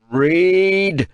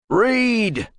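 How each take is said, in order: First: Higher, louder single-word order; shouted command. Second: Higher, clipped single-word order; sharp command. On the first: Kratos ordering the translator, loud command. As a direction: roar the order. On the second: Kratos ordering the translator, sharp command. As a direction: bark the order. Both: Acted.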